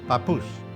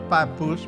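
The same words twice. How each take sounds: First: The stress is on the last syllable. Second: The stress is on the first syllable. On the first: The speaker calls it right. "The accent is on the puss" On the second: The speaker calls it wrong. "Not papoose"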